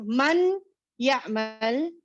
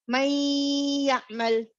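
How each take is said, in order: First: The n is clearly pronounced before the y. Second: The n merges into y with a held nasal hum. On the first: The speaker calls it wrong. "Instead of saying man ya'mal" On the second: The speaker calls it right. "drop the nun, go to ya, may. Apply the gunna, two beats"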